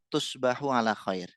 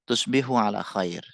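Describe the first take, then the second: First: The vowel after the b is 'a'. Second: The vowel after the b is 'i'. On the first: The speaker calls it wrong. "Ini harokatnya salah teman-teman" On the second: The speaker calls it right. "Yang benar tusbihu"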